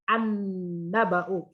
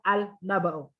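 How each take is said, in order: First: The l is silent and merges into the n. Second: The l is clearly pronounced before the n. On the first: The speaker calls it right. "the Lam is not uttered" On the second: The speaker calls it wrong. "instead of"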